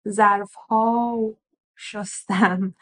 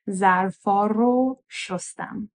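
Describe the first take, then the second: First: The object marker is said without an r sound. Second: The object marker is said with an r sound. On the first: The speaker calls it wrong. "it's a little bit difficult to say" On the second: The speaker calls it right. "we're going to now pronounce the re sound in ra"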